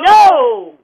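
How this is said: It is said angrily.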